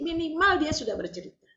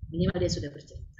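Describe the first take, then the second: First: Raised stress on minimal; emphatic. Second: Said in the usual way. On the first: Shown as a demonstration. Preacher stressing minimal to the women. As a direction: minimal said high and pressed.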